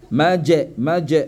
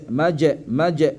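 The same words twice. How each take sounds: The two takes are said the same way.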